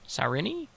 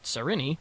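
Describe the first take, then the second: First: The name is said hesitantly and unsurely. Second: The name is said firmly and confidently. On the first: The speaker doubts the pronunciation. "Really hoping I said that right" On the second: The speaker acts sure of the pronunciation. "I'm gonna say it again as if I'm confident"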